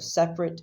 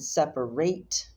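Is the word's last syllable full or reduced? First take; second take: reduced; full. First: The last syllable is reduced and short. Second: The last syllable is full, like 'rate'. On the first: It describes things that are apart. "So separate is the adjective" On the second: It names the action of splitting apart. "and separate is the verb"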